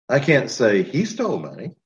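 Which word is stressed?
he. The word "he" is stressed. Someone else may have done it.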